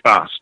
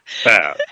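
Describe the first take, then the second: First: It is said in a British accent. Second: It is said in an American accent. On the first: "They say fast" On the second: "sounds so much faster than fast"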